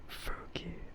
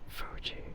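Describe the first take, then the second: First: The middle consonant is a hard k-like sound. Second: The middle consonant is a soft j sound. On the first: The speaker calls it wrong. "not Fuki" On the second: The speaker calls it right. "it's Fuji"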